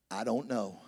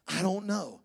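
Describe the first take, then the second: First: Lowered mumbled mock answer. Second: Softer mumbled mock answer. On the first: Spouse answer imitated. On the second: Spouse answer repeated.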